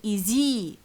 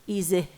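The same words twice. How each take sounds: First: The final vowel is drawn out long. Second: The final vowel is cut short.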